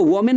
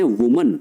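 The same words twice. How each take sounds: First: वोमेन said wrongly as vo-men, with an o in the first syllable like women; wrong pronunciation. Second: वुमन said correctly as woo-mun, with a short u in the first syllable; right pronunciation. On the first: Teacher to students showing the wrong way: वोमेन as vo-men. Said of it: "इसको वोमेन नहीं बोलते हैं". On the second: Teacher to students giving the correct form: वुमन as woo-mun. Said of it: "इसको बोलते हैं वुमन". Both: Shown as a demonstration.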